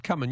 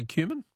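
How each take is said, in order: First: "cumin" said as KUM-in; first-syllable CUM pronunciation. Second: "cumin" said as KYOO-min; KYOO-min pronunciation. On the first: Host compares his habit with caller's, "cumin" as KUM-in. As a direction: say "cumin" with a short uh, no y-glide. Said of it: "never known how you pronounce it". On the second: Host queries the caller's way, "cumin" as KYOO-min. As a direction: say "cumin" with a long you sound. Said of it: "You say, you say cumin?". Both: Shown as a demonstration.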